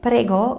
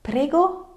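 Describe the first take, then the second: First: Said in the usual way. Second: "prego" high with a rising end; questioning intonation. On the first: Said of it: "The word prego". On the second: Shown as a demonstration. Teacher demonstrates asking for clarification, "prego" high and rising. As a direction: ask "prego" as a one-word question, pitched up. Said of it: "Same thing with the word".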